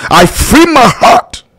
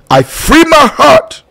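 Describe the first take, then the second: No difference in how they are said.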